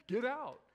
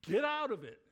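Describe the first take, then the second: First: Loud insistent order to leave; alarmed urging. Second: Loud urgent warning to get out; urgent mock-alarm shout to sister. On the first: Retold or imitated. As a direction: press her hard to go now. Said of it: "can you hear the alarm in my voice". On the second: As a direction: yell it at your sister down the phone. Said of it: "I'm like".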